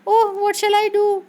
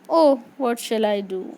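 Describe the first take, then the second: First: It is said in a frightened tone. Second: It is said in a sad tone.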